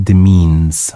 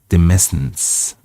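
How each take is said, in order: First: "demeans" like de-MEENS, middle S silent. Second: "demescence" with the S pronounced; S sounded. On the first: Shown as a demonstration. Reader showing the looked-up pronunciation, "demeans" with silent middle S. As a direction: say "demeans" slowly, with a long ee. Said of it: "So it's pronounced demeans". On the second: Real, not acted. Reader guessing at an unknown word, S sounded in "demescence". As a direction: say "demescence" slowly, sounding the middle S. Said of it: "Oh, the S is silent".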